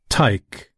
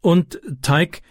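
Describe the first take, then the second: First: A mild warning from the gang boss; gang leader repeating his nickname. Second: Raised higher, Francis eagerly naming Tyke; a boy's bright plea to the gang leader; eager boy calling Tyke. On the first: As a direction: throw the name back, unimpressed. Tyke rejects his nickname. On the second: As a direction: call his name up high, keen to join. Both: A narrator's reading.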